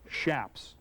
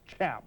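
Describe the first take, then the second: First: The word begins with a soft 'sh' sound. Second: The word begins with a hard 'ch' sound. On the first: "you pronounce them shaps" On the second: "They're not pronounced chaps"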